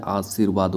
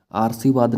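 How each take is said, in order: First: आशीर्वाद as "aa-seer-vaad"; आशीर्वाद with r after the second vowel; correct form. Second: आशीर्वाद with the r moved forward, "aarsivaad"; misplaced r in आशीर्वाद, right after the first vowel; wrong form. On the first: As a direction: put the r of आशीर्वाद just before "vaad". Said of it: "आशीर्वाद होता है". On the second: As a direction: say आशीर्वाद wrongly as "aar-si-vaad". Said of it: "नहीं होता है". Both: Shown as a demonstration.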